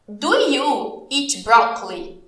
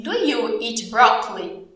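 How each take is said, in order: First: Very slow, spaced-out English question; very slow model question. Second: Slow but connected teacher question; slow model question. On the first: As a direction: ask it slowly, chunk by chunk. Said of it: "Eu vou te perguntar aqui". (pergunta-modelo bem devagar, pausada) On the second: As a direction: ask it slowly in one piece. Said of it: "É uma pergunta". (pergunta lenta, sem pausas) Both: Shown as a demonstration.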